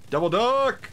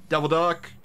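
First: High, louder villain cry; gleeful shout. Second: Said in the usual way. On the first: Acted. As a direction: yell the name high like a cartoon villain. Repeats in devil voice.

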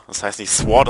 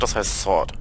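First: Sword said German-style as svort with a hard w and t; mock the wrong way: svort; wrong pronunciation. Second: Sword said the English way, sord, with a silent w; correct pronunciation. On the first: Teaching viewers the mistake, Sword said as svort. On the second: Correcting viewers, Sword said properly as sord. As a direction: give the right English form: sord. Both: Shown as a demonstration. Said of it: "dass das mal alle wissen".

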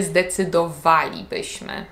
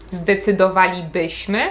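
First: "zdecydowalibyśmy" stressed on WA, falling after it; stress fourth from last. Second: "zdecydowalibyśmy" stressed on BY, the second-to-last syllable; wrong penultimate stress. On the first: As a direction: hit WA in "zdecydowalibyśmy" and let BY stay light. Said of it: "akcent na czwartej sylabie od końca". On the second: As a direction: put the accent on BY in "zdecydowalibyśmy", rising at the end. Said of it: "Czyli nie mówimy". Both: Shown as a demonstration.

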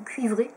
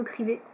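First: "cuivrés" said carefully, kwee-VRAY with the ui glide; "cuivrés" corrected, clear u-i glide after k; corrected word. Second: "crivés" slipped, said kree-VAY without the ui glide; "crivés" tongue slip, cr then i straight, no u sound; mispronounced word. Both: Real, not acted. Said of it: "cuivrés, pas cramés".

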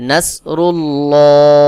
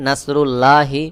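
First: "নাসরুল্লাহি" with a heavy, rounded "lloo" held long; loud slow chant, full dark L in "নাসরুল্লাহি"; correct thick pronunciation. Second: "নাসরুল্লাহি" with a light, thin "laa", spoken short; thin mispronunciation. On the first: Teacher corrects the mistake, thick drawn-out "নাসরুল্লাহি". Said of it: "সহি উচ্চারণ হলো". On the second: Teacher imitates a common mistake, thin "laa" in "নাসরুল্লাহি". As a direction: say "নাসরুল্লাহি" with an unrounded "laa", not chanted. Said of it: "এটা ভুল উচ্চারণ।". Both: Shown as a demonstration.

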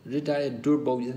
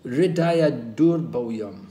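First: Said in the usual way. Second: Slow, weighty Hridaya durbhoyam, each syllable laid out; first slow recital of Hridaya durbhoyam; slow emphatic Sanskrit. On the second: Shown as a demonstration. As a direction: dwell on Hridaya durbhoyam slowly. Sanskrit term said twice.

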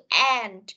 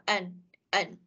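First: Said in the usual way. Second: "an" with the final D dropped; unstressed "and". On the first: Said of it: "thì mình sẽ đọc là an". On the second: Shown as a demonstration. Teacher explains weak forms to students, "an" without stress or D. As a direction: say "and" weakly as "an". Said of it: "Bởi vì nó không có nhấn mạnh lắm".

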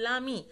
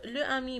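First: "لامي" run together, article vowel dropped; joined as one word. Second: "لو امي" with the article left separate; unjoined article. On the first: Teacher showing pupils the elision, two words joined as one. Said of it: "بتصبح الكلمتين دولا كلمة واحدة". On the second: Teacher showing pupils the form not to say, article unjoined. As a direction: say "لو امي" as two words, vowel kept. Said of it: "ما اقولش لا". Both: Shown as a demonstration.

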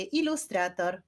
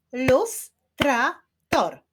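First: Said in the usual way. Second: "Ilustrator" slowly split as I-lus-tra-tor, higher; four spaced beats for "Ilustrator"; syllable by syllable. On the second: Shown as a demonstration. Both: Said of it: "Wyklaszczmy sylaby w wyrazie ilustrator".

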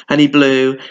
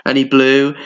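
No difference in how they are said.

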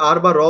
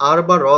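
No difference in how they are said.

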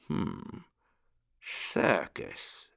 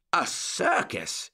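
First: Murmured. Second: Higher, slow and drawn out; surprised exclamation. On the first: Old rabbit gentleman considers the circus, thoughtful soft murmur. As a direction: think aloud softly, barely voiced. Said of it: "murmured the old rabbit gentleman". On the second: Uncle Wiggily hears of a real circus, surprised slow exclamation. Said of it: "exclaimed Uncle Wiggily". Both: A narrator's reading.

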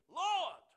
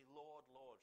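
First: One huge, high-pitched LORD; emphatic shout. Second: Said in the usual way. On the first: Shown as a demonstration. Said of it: "to show the emphasis on a word". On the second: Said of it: "they would repeat the word".

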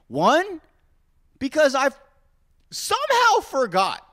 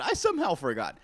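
First: Mock dramatic. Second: Said in the usual way. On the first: Real, not acted. Mock dramatic listing of reasons.

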